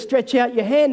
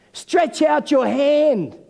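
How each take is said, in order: First: Said in the usual way. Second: Slow, higher-pitched, drawn-out command; retold command. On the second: Jesus to the man with a shriveled hand, slow command. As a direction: stretch each word out as an order.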